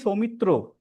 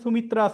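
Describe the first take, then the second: First: The name ends with an 'o' vowel. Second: The name ends with an 'a' vowel. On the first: This is how it is said in Bengali. "In Bengali, it is Somitro. ... A is pronounced as O" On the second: This is how a Hindi speaker says it. "they will say Sumitra"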